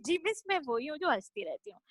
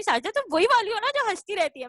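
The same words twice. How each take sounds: First: Meek admission. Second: A bit higher, quicker and louder, teasing recognition; old teacher recalling the giggly pupil. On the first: Grown pupil answers her old teacher, softly sheepish. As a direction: own it quietly, like a caught pupil. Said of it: "मैंने कहा". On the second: Teacher greets her former student, teasing and brisk. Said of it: "कहती है". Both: Retold or imitated.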